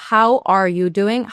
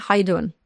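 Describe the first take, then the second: First: "How are you doing?" slow, every word said separately; careful full form. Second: "How you doing?" run together like two words; linked speech. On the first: Teacher contrasting careful English with linked speech, slow and full. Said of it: "Como el". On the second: Teacher showing how natives join words, quick and linked. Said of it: "a lo mejor suenan a dos". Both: Shown as a demonstration.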